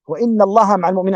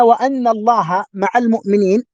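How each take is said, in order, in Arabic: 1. الأداة بعد 'wa' تبدأ بحركة 'i'. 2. الأداة بعد 'wa' تبدأ بحركة 'a'. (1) "وأما إذا قرأنا بالكسر" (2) "إذا قرأنا بالفتح"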